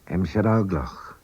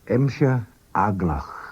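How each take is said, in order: First: It is said at normal speed. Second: It is said slowly. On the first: "and then at normal speed" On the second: "First, slowly"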